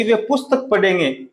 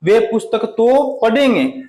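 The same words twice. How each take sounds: First: Said in the usual way. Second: Slow, तो pressed; stress on पुस्तक तो. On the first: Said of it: "निपात शब्द का प्रयोग करते हैं". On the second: Shown as a demonstration. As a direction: lean on "पुस्तक तो". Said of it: "तो वे जरूर पढ़ेंगे".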